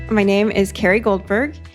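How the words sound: The voice rises at the end like a question. It sounds like she is asking. The speaker calls it wrong.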